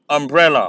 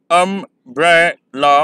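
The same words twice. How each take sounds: First: Said in the usual way. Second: "अम्ब्रेला" slow, um-bre-la split; syllable by syllable. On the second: Shown as a demonstration. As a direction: count out "अम्ब्रेला" in three beats. ("अम्ब्रेला" धीरे, तीन syllable में) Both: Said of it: "आप pronounce करेंगे".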